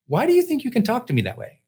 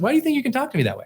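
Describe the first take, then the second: First: Higher, fast mock of his wife's indignant question; imitating wife's challenge. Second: Higher, very fast replay of the wife's indignant question; rushed retelling of wife. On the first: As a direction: imitate the wife pushing back, a bit quicker. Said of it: "she goes". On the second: Retold or imitated. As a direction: rattle off her words quickly. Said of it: "she just said".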